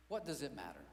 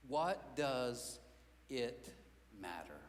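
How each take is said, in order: First: Said in the usual way. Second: What does it matter? said word by word, pausing, voice sinking low on matter; slow, spaced-out question. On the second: Shown as a demonstration. Preacher to church, slow and heavy. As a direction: let each word hang.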